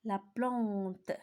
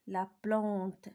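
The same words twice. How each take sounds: The two takes are said the same way.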